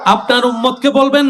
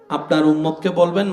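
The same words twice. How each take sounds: First: It is said more loudly. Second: It is said at normal loudness.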